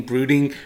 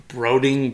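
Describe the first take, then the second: First: Said in the usual way. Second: "brooding" said as "broding", with a long O; mispronounced. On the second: Real, not acted. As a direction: say "brooding" with the vowel of "road". Stumbles on word, then corrects it.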